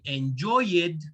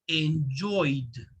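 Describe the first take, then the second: First: The ending is not a plain D sound. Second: The ending is a plain D sound. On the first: The speaker calls it wrong. "we don't say enjoyed" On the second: The speaker calls it right. "we say enjoyed. Oid"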